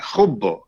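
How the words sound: The word ends in an o vowel. This is the Western dialect form. "هم بيقولوا خبوا"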